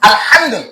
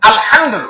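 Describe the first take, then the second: No difference in how they are said.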